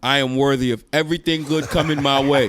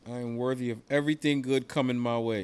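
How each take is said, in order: First: It is said louder, in a fuller voice. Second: It is said quietly, in a low voice.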